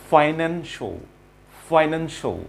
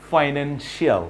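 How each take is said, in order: First: "ফাইন্যান্সিয়াল" ending in a short "sho"; correct pronunciation. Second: "ফাইন্যান্সিয়াল" with a full "shi-aal" ending; common mispronunciation. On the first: Teacher models the word for learners, correct pronunciation. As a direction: say "ফাইন্যান্সিয়াল" as "fai-NEN-sho". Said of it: "এটির pronunciation". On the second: Teacher mimics what learners say, mispronunciation. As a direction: say "ফাইন্যান্সিয়াল" as "fainen-shee-AL". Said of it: "আমরা কিন্তু এটাকে বলি". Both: Shown as a demonstration.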